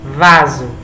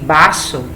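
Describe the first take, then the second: First: It is said with a Portuguese pronunciation. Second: It is said with a Spanish pronunciation. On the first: It means a flower pot. "pronúncias diferentes" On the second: It means a drinking glass. "pronúncias diferentes"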